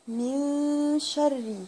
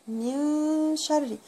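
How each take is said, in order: No difference in how they are said.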